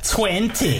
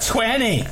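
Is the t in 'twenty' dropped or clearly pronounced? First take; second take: pronounced; dropped. First: The middle t sound is clearly pronounced. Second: The middle t sound is dropped. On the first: The speaker calls it right. "I spoke with my full pronunciation" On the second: The speaker calls it wrong. "Not 20"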